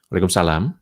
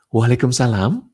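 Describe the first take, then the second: First: It is said in a flat, unsmiling voice. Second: It is said in a warm, smiling voice.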